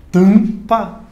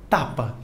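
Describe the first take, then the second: First: Tampa with a nasal first a and no M heard; nasal vowel. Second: Tapa with a fully oral a and no nasal sound. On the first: Teacher shows students the nasal vowel in Tampa. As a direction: nasalize the a in Tampa and keep the M silent. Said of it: "Esse M não tem um som próprio". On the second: Teacher shows students the word without nasalizing. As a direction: say Tapa with a clean open a, nothing through the nose. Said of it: "Se você não nasaliza". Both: Shown as a demonstration.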